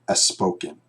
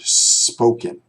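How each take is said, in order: First: A short vowel is added before the s sound. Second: The word begins directly with the s sound. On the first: The speaker calls it wrong. "You don't want to say the word a spoken" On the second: The speaker calls it right. "You want to say the word spoken"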